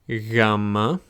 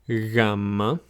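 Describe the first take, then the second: First: The first sound is soft and drawn out. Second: The first sound is soft and drawn out.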